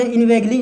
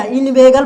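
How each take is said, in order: First: इनवेगली with an added ली sound at the end; wrong pronunciation. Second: इनवेगल ending on a plain ल, no ई sound; correct pronunciation. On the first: Teacher shows students the mistaken reading: इनवेगली with an added ली. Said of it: "इस तरह का नहीं पढ़ना". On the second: Teacher gives students the right reading: इनवेगल, ending on गल. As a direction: say इनवेगल with a clean final गल. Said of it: "ये नहीं कि, कुछ गलत पढ़ दे, इनवेगली". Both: Shown as a demonstration.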